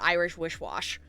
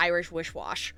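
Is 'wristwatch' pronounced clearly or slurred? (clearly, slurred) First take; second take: slurred; slurred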